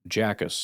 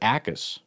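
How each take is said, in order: First: The name begins with a J sound. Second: The name begins with a vowel sound. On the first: The speaker calls it wrong. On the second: The speaker calls it right.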